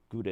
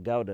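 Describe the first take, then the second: First: It is said with an American accent. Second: It is said with a British accent. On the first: This is how Americans say it. "as you Americans say" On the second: This is how people back home say it. "as we say back in my ends"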